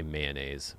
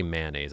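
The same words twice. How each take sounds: First: "mayonnaise" as MAY-uh-naze; own pronunciation. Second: "mayonnaise" as MAN-aze, two syllables; rejected pronunciation. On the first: Showing viewers their own way, MAY-uh-naze. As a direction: say "mayonnaise" in three syllables, starting MAY. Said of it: "I say mayonnaise". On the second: Showing what they don't say, MAN-aze. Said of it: "I don't say mayonnaise". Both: Shown as a demonstration.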